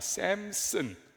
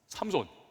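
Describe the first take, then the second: First: It is said with English-like vowels, as sam-sun. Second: It is said with Korean vowels, as sam-son.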